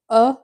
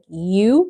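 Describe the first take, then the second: First: The vowel is a short 'uh' sound. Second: The vowel is a long 'you' sound. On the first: The speaker calls it right. "the short U sound, which is uh for umbrella" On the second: The speaker calls it wrong. "you don't say like U because that would be the long sound"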